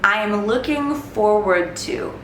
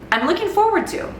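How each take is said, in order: First: The phrase is spoken slowly and carefully. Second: The phrase is spoken quickly and naturally. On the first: "I'm going to say each phrase a little bit slowly" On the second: "I'll say it at a fast, natural speed"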